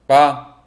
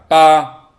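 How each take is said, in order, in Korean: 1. 음절이 짧고 가볍습니다. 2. 음높이가 평평하게 유지되고 길게 늘어집니다. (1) "짧고 가볍게" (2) "소리를 옆으로 약간 길게 쭉 소리를 내면 됩니다"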